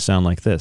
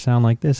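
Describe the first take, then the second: First: The voice is deep and low. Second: The voice is higher and less deep. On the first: The chipped tooth is uncovered. "I take it off and I sound like this" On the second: The chipped tooth is covered. "if I cover it, I start to sound like this instead"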